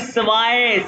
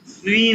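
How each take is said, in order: First: The vowel is an 'eye' diphthong. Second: The vowel is a long 'ee' sound. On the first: The speaker calls it right. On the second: The speaker calls it wrong. "स्वी नहीं है भाई"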